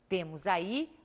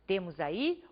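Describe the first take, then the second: No difference in how they are said.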